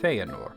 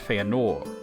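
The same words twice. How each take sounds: First: The stress falls on the first syllable. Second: The stress falls on a later syllable. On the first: The speaker calls it right. "the accent is on Fe" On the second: The speaker calls it wrong. "It's not Feanor"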